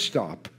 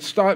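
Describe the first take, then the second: First: The word is said in a calm, quiet voice. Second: The word is screamed in a loud voice. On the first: The speaker is trying to stay composed. "I'm using my calm voice" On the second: The speaker is panicking in an emergency. "So I'm screaming"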